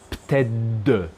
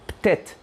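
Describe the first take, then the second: First: The word ends with a d sound. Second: The word ends with a t sound. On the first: "when they're together, are pronounced pted" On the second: "here ptet"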